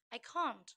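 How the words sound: It is said with a British accent. "and then in British"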